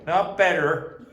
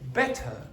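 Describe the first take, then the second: First: The middle T is a glottal stop. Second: The middle T is fully pronounced. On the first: The speaker calls it wrong. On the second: The speaker calls it right.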